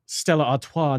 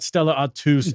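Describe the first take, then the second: First: ARTOIS said "ar-TWAH", silent final S; French pronunciation. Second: ARTOIS said "ar-TOOS", final S sounded; mispronunciation. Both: Shown as a demonstration. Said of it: "is pronounced Stella Artois, not".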